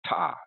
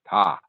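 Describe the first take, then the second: First: The T at the start is strong and crisp. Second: The T is barely heard; the vowel resonates. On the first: "a sort of a pronounced T at the beginning of it" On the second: "there's hardly a T at the beginning of it"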